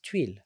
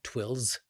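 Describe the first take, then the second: First: The word ends without any s sound. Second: The word ends with an audible s sound. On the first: The speaker calls it right. "is silent" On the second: The speaker calls it wrong. "It's not twills"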